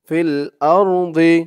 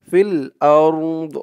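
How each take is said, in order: First: The phrase ends with a short i vowel. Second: The phrase ends on a bare d consonant. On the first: The reading goes on without stopping. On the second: The reading stops at this word.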